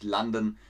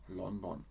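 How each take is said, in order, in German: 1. Der Name wird englisch ausgesprochen. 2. Der Name wird deutsch ausgesprochen. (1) "und nicht London" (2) "aber in Deutschland sagt man London"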